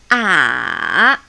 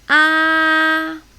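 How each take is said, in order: First: The pitch has a small change within it. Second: The pitch stays high and level. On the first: "The third tone, which is a beach tone" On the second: "It's like opera. Ah, just keep it there, very high"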